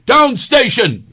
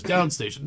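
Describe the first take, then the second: First: Much higher, louder, drawn-out shout; slow yelled command. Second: Said in the usual way. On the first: Retold or imitated. Friend yelling at his car stereo, slow loud shout. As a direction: scream it at the car, stretched out. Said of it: "not loud enough". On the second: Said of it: "He goes".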